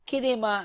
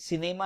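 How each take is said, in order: First: The word begins with a K sound. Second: The word begins with an S sound. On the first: The speaker calls it wrong. "We are not pronouncing cinema and century as kinema" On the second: The speaker calls it right. "C is pronounced as S"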